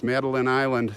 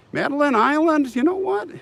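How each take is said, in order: First: Said in the usual way. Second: Much higher, excited squeal on the name; sudden high-pitched thrill at a close guess. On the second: Real, not acted. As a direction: squeal it, the guess nearly hits.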